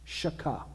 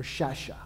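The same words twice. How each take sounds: First: Shaka said SHAH-kah, with a K in the middle; "shaka" as two syllables, SHAH then KAH; hard K pronunciation. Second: Shasha said SHAH-shah, SH in both syllables; "shasha" as two syllables, SHAH then SHAH; SH pronunciation. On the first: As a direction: say shaka with a hard K before the final vowel. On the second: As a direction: say shasha with a soft SH in the middle. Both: Shown as a demonstration. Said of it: "however you pronounce it".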